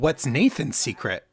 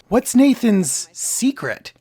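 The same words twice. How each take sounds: First: The stress falls on the word Nathan's. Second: The stress falls on the word secret. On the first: It asks about Nathan in particular among everyone. The speaker calls it right. "So the way that Max should say it is" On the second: Nathan had already been mentioned before. The speaker calls it wrong. "But instead she says"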